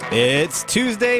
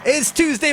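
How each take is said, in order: First: It is delivered slowly and held back. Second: It is delivered faster and more briskly. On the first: The speaker calls it wrong. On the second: The speaker calls it right.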